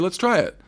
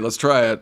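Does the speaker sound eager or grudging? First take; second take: eager; grudging. First: It sounds eager and sincere. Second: It sounds grudging and upset. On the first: The speaker really means it. The speaker calls it right. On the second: The speaker has given up and feels hurt. The speaker calls it wrong.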